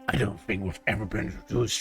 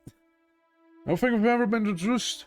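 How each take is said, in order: First: It is said in a put-on dark elf voice. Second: It is said in the speaker's normal voice. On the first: The speaker calls it right. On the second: The speaker calls it wrong.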